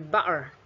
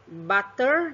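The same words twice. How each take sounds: First: The middle t is a glottal stop. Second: The middle t is a clear t.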